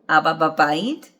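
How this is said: The pitch rises at the end. It asks whether Dad is in the house. "question, ... the tone rises at the end"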